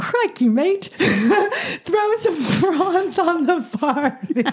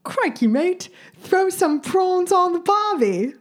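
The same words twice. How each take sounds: First: Laughing attempt at an Australian accent, high and slow; breaking into laughter mid bad Aussie accent. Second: Put-on higher, slow Australian accent, second try; a more committed stab at an Australian accent; better Aussie accent. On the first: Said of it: "give us your best Aussie accent". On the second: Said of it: "wait, I can do it".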